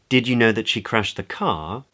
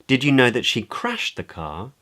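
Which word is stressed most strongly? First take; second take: car; crashed. First: The word car carries the main stress. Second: The word crashed carries the main stress. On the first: It asks whether the listener knew it was the car, not something else. "Questions whether the other person knew that it was the car that she'd crashed as opposed to something else" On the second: It asks whether the listener knew what happened to the car. "Questions whether the other person knew the state of the car"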